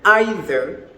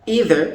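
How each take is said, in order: First: It is said with a British pronunciation. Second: It is said with an American pronunciation. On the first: "for the British" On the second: "for the Americans"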